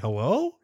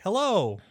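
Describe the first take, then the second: First: The voice rises at the end like a question. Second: The voice falls flatly at the end.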